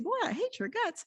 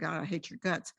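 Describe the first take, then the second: First: It is said in a nice tone. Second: It is said in a harsh tone.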